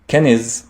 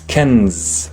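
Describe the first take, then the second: First: An i vowel follows the n sound. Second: No vowel follows the n sound. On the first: The speaker calls it wrong. "it does not have a kasra" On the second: The speaker calls it right. "It's kenz"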